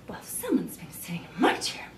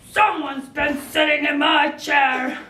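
First: It sounds mildly annoyed, as Mama Bear. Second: It sounds angry, as Papa Bear.

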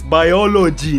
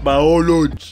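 First: The first syllable sounds like 'why'. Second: The first syllable does not sound like 'why'. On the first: The speaker calls it right. "you have to pronounce the Y. It's biology" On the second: The speaker calls it wrong. "not biology"

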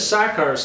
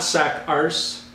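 First: The name ends without an 'arse' sound. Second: The name ends with an 'arse' sound. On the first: The speaker calls it right. "My name is Sakars" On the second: The speaker calls it wrong. "not Sakarse"

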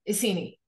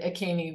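First: The name starts with an 'eye' and an s. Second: The name starts with an 'ah' and a hard k. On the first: The speaker calls it right. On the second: The speaker calls it wrong.

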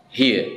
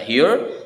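First: It is said in a British accent. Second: It is said in an American accent. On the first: "kalau dalam British English ini dibaca here" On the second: "Kalau dalam American English ini dibaca here"

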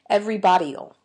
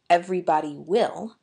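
First: Will is reduced to an ol sound. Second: The word will is said in full. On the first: "I say everybody'll. Just an ol sound at the end" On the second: "I don't say everybody will"

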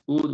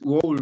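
First: Only the vowel and final d are sounded. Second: The written letters are all sounded out. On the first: The speaker calls it right. "Es would únicamente. Solamente pronunciamos la U y la de" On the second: The speaker calls it wrong. "no es would"

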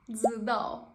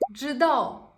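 First: The word begins with a 'dz' sound. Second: The word begins with a 'j' sound.

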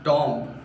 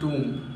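First: The vowel sounds like 'oh' in 'Tom'. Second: The vowel sounds like 'oo' in 'room'. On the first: The speaker calls it wrong. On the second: The speaker calls it right.

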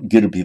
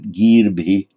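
First: The first vowel is kept short. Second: The first vowel is held long. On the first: The speaker calls it wrong. "not girbhi" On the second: The speaker calls it right. "but girbhi"

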